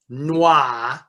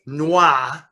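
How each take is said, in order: Both takes have the same delivery.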